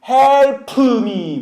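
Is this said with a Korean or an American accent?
Korean. The P sound is strongly pushed out. "한국 사람은 P 소리를 강조해서 음파, 음파처럼"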